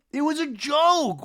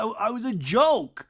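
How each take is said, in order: First: Higher, slow whiny insistence; mock defensive. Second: High, slow whiny insistence; mock defensive. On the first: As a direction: push the excuse even higher. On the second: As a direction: drag out the excuse. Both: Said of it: "Jesse Solomon was like".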